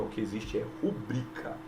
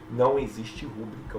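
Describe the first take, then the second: First: "rubrica" stressed on "bri", said softly; teacher giving the correct form after the error; correct stress shown. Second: "rúbrica" stressed on the first syllable "rú"; teacher demonstrating the classic silabada; wrong stress shown. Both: Shown as a demonstration.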